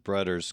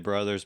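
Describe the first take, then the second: First: The middle consonant is a hard d sound. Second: The middle consonant is a soft th sound. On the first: "he spells it with D's" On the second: "I say brothers"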